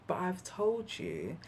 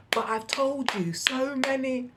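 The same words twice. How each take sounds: First: Softened. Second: Louder, higher, lecturing exasperation; exasperated. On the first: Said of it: "I lowered my hands and I said". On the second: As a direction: hammer the point home, fed up. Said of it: "I found myself going". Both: Retold or imitated.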